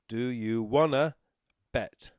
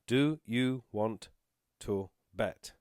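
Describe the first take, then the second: First: 'Want to' is reduced to 'wanna'. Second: 'Want to' is said fully, as two words. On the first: "the way that we actually say it is" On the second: "you'll see this written down as"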